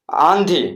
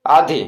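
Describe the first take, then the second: First: आंधी with the first आ nasalised, like आँधी; nasal vowel. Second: Said in the usual way. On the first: Shown as a demonstration. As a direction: open आंधी with a nasal आँ before the ध. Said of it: "नाक से न का उच्चारण निकालना पड़ता है". (आंधी का पहला आ नाक से बोलें) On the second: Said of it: "आधी बोलने में नाक से न का उच्चारण नहीं होता है".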